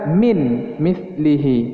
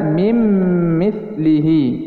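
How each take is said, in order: First: The first word ends in a separate n sound. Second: The first word ends in a closed-lip m sound. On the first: The speaker calls it wrong. "tidak boleh dibaca min mithlihi" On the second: The speaker calls it right. "dibaca mim mithlihi"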